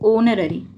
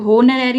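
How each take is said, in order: First: The word begins directly with a vowel sound. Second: The word begins with an audible h sound. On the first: The speaker calls it right. "इसकी जो sound होगी वो क्या होती है अभी, ओनरेरी" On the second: The speaker calls it wrong. "अभी होनरेरी नहीं बोला जाता"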